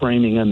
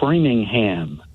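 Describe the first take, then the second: First: The ending is reduced to a weak 'um'. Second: The ending is said as a full 'ham'. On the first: The speaker calls it right. "You'd say" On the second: The speaker calls it wrong. "towns that end in H A M ... you wouldn't say them that way"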